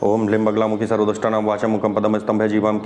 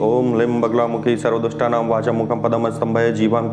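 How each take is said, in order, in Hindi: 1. मंत्र तेज़ गति से पढ़ा जाता है। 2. मंत्र धीमी गति से पढ़ा जाता है। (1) "मैं इतनी तेज स्पीड से बोल पाता" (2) "आप लोग की स्पीड होगी"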